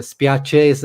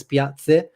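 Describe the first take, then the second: First: "spiace" with a clear ch, spee-AH-cheh; the proper way, "spiace" with ch; correct spiace. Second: "piazze" with a ts sound in place of ch; Z accent imitation. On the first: Shown as a demonstration. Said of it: "he says the letter Z instead of". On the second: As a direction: mimic his Piacenza accent, "piazze" with ts. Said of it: "It sounds like he says".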